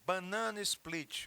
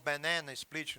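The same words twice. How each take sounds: First: It is pronounced with Portuguese sounds. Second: It is pronounced with English sounds.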